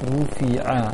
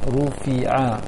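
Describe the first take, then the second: No difference in how they are said.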